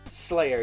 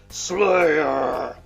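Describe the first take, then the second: First: The word is said at normal volume. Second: The word is yelled loudly. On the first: The speaker calls it wrong. "you can't just say Slayer" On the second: The speaker calls it right. "you gotta yell it"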